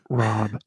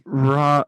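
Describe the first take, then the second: First: It is said very softly. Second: It is said louder, but not shouted.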